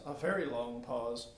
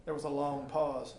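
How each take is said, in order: First: Slower and softer; slowed quiet narration; slow pause. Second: Said in the usual way. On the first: A narrator's reading. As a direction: draw out the pause.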